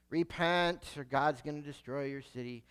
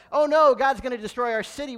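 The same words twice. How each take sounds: First: Low, soft, listless warning; half-hearted, reluctant prophecy; Jonah. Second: Loud, higher, hammed-up panic; acted sudden dismay, raised voice; mock alarm. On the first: Acted. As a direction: deliver the warning with no effort at all. Jonah repeats his reluctant message. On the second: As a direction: cry out like an alarmed townsperson. Ninevites react in alarm to warning.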